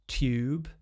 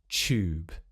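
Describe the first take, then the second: First: It starts with a separate t and y sound. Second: It starts with a merged ch sound. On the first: "first with the more standard R P, with the t and the y together" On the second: "a second time with the Yod coalescence"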